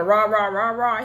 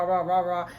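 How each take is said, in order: First: Punchy mock ranting rah-rah; exaggerated aggressive blustering; mock aggression. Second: Said in the usual way. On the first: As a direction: imitate someone coming on strong. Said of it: "she made it like he was, really on". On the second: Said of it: "He wasn't on that much of rah".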